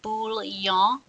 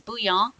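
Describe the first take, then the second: First: The word is pronounced with an English-sounding pronunciation. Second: The word is pronounced with a French-sounding pronunciation. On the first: The speaker calls it wrong. "It is not bouillon" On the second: The speaker calls it right. "it is bouillon because it's French"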